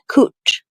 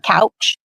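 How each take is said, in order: First: The vowel is an 'oo' sound. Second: The vowel is an 'ow' sound. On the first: This is how locals say the street name. The speaker calls it right. "Just like she said, Cooch" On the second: This is how outsiders say the street name. The speaker calls it wrong. "Not couch"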